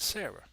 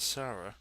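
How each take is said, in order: First: Sarah said as SAIR-uh; alternative Sarah pronunciation. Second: Said in the usual way. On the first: Shown as a demonstration. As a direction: say Sarah with an "air" vowel in the first syllable. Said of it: "some people may pronounce it Sarah". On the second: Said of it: "so I pronounce it Sarah".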